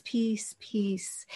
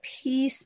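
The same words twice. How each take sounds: First: "peace, peace" whispered, softer and softer. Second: Said in the usual way. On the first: Shown as a demonstration. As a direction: breathe "peace" gently out. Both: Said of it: "but peace".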